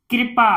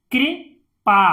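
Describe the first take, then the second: First: Said in the usual way. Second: "कृपा" in two separated parts; syllable by syllable. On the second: Shown as a demonstration. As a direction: split "कृपा" with a pause inside. Teacher sounds out, then blends. ("कृपा" को तोड़कर पढ़ना)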